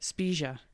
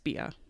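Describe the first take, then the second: First: The g sound in the middle is pronounced. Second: The g sound in the middle is left out. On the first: The speaker calls it right. "you pronounce the G in Italian" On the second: The speaker calls it wrong. "I don't think you pronounce it that way"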